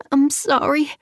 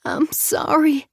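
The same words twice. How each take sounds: First: Avery weeping into her sister's arms; tearful apology. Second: High, slow, tear-choked I'm sorry; Avery crying out an apology to her sister; tearful apology. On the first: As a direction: plead forgiveness through tears. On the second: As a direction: apologize through welling tears. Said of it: "tears welled and spilled down". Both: A narrator's reading.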